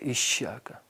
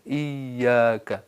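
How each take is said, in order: First: The 'y' sound is replaced by a harsher sound. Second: The 'y' sound is pronounced softly. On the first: The speaker calls it wrong. "या को अरबी या के बजाय कोई और या में बदल" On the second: The speaker calls it right. "नरमी से"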